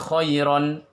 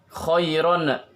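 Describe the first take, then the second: First: The final n is held smoothly without a burst. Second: The final n is bounced with an extra burst. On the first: The speaker calls it right. "tetapi khairon" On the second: The speaker calls it wrong. "Jangan dipantulkan, bukan"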